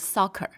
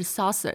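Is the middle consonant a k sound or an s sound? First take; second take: k sound; s sound. First: The middle consonant is a k sound. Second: The middle consonant is an s sound. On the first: The speaker calls it right. "你是发克的音" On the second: The speaker calls it wrong. "不是saucer"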